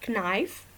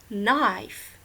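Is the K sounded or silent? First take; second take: sounded; silent. First: The K at the start is sounded. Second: The K at the start is silent. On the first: The speaker calls it wrong. "Have you ever said knife? That is very funny" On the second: The speaker calls it right. "You should say knife. The K is silent"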